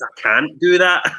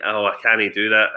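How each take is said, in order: First: "can't" pronounced in full, louder and higher; corrective "can't". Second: "canny" for can't, in easy Scots. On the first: Retold or imitated. Guests correcting the speaker's slang, pointedly standard "can't". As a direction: slowly punch "can't" as one standard syllable. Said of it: "and they're like". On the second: Shown as a demonstration. Speaker showing Glasgow guests their own slang, Scots pronunciation. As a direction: say "canny" as a casual two-syllable Scots can't. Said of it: "I say "canny".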